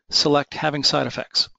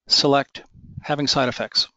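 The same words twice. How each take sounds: First: The words flow on without a pause. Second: A long pause follows the word 'select'. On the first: The speaker calls it right. "very little pause between the select command" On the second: The speaker calls it wrong. "there was too long of a pause between my use of the word select"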